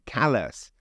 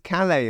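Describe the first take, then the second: First: It is said the way people in Maine say it. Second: It is said the way people in France say it. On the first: It names the town in Maine. "in Maine it's Calais" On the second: It names the town in France. "is Calais in France"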